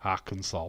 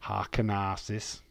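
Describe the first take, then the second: First: Said in the usual way. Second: Harkenarsis read letter by letter; literal misreading. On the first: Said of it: "It doesn't say Arkansas". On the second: Shown as a demonstration. Reading Harkenarsis off the chat as spelled. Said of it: "It says Arkanarkis".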